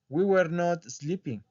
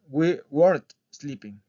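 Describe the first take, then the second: First: Were and not are said as two full words. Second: Were and not merge into one contracted word. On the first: This is the form for beginners. The speaker calls it wrong. "no van a encontrar a alguien que les diga" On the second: This is how native speakers say it. The speaker calls it right. "les van a decir"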